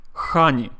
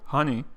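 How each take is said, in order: First: Russian-accented "honey" with a strong kh. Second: Said in the usual way. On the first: Shown as a demonstration. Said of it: "A Russian person would say". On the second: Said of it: "for honey and hat".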